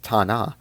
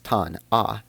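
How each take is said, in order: First: "ta-na" split after ta, N opening the second syllable; syllable break before N. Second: "tan-a" split after the N, second syllable starting on the vowel; syllable break after N. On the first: Teacher showing syllable grouping to viewers, "ta-na" split as ta + na. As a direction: say "ta-na" as ta, then na. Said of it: "The first one is pronounced". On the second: Teacher showing syllable grouping to viewers, "tan-a" split as tan + a. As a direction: say "tan-a" as tan, then a. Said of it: "while the bottom is pronounced". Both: Shown as a demonstration.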